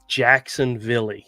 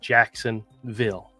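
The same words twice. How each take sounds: First: The word ends with an added 'ee' sound. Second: The word ends plainly on the 'l' sound. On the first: This is how a foreign scammer says it. The speaker calls it wrong. "They love to say Jacksonville. ... and says Villy" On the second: This is how people in the US say it. The speaker calls it right. "Everybody knows it would be Jacksonville"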